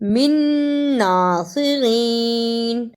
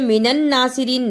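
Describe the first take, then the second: First: The words join with one plain 'n'. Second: An extra 'n' syllable is added between words. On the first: The speaker calls it right. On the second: The speaker calls it wrong.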